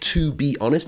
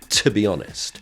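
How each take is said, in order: First: The word 'to' has a full, clear vowel. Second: The word 'to' has a weak, reduced vowel. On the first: The speaker calls it wrong. "it's not to be honest" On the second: The speaker calls it right. "it's to be honest"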